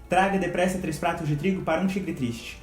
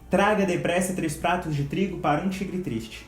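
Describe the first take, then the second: The two takes are said the same way.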